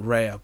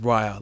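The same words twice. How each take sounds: First: The first syllable does not rhyme with 'my'. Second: The first syllable rhymes with 'my'. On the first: This is how the speaker assumed it was said. The speaker calls it wrong. "I always just kept calling it Raya" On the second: This is the official pronunciation. The speaker calls it right. "pronounced as Raya, like Maya"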